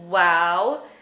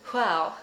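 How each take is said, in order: First: The first sound is voiced, a plain w. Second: The first sound is voiceless, a breathy wh. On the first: "one is voiced" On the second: "and one is voiceless"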